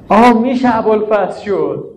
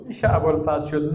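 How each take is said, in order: First: Wailing lament. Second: The same words dropped much softer, almost to himself; hushed repeat. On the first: Preacher to mourners, crying out in lament. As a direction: cry the line out in grief. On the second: Preacher to mourners, repeating it softly. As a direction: let the echo fall away quietly. Quiet echo of the lament. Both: Acted.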